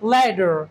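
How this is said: The middle t sounds like a soft d. "আমেরিকানরা এটাকে বলে ল্যাডার"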